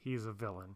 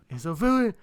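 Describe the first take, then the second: First: It is said in his normal voice. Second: It is said imitating Samwise Gamgee's voice.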